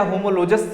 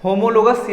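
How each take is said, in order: First: "होमोलोजस" with a j sound in the ending; soft J pronunciation. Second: "होमोलोगस" with a hard g in the ending; hard G pronunciation. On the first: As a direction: say "होमोलोजस" ending in -jas, not -gas. ("होमोलोजस" में ग की जगह ज की ध्वनि) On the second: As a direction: say "होमोलोगस" ending in -gas, not -jas. ("होमोलोगस" में ग की कठोर ध्वनि) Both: Shown as a demonstration. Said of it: "इसको कुछ लोग होमोलोजस भी बोलते हैं".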